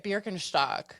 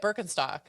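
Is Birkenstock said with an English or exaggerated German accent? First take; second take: German; English. First: It is said with an exaggerated German pronunciation. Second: It is said with a plain English pronunciation. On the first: "She'll say Birkenstock. she overpronounces every German word" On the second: "instead of Bir Birken, I can't even say it"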